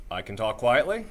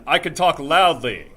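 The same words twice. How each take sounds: First: Said in the usual way. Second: Big, slow, higher projected shout; loud projection. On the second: Shown as a demonstration. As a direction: belt it out from the diaphragm. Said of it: "say something really loud".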